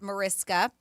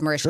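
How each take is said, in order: First: The middle consonant sounds like s before k. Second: The middle consonant sounds like sh before k. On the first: The speaker calls it wrong. "often incorrectly pronounced the way it's spelled" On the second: The speaker calls it right. "properly pronounced Marishka, which is what I said"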